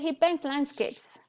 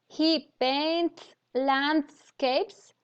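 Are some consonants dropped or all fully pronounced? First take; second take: dropped; pronounced. First: Some consonants are dropped and it is faster. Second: Every consonant is fully and carefully pronounced. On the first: The speaker calls it right. "it sounds easier, faster" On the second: The speaker calls it wrong. "it doesn't sound very natural"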